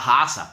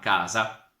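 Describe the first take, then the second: First: The word begins with a breathy h sound. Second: The word begins with a hard k sound. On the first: This is how someone from Tuscany says it. The speaker calls it wrong. "Quando che un toscano eh, dice la, la hasa" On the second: This is standard Italian. The speaker calls it right. "io abito in una casa"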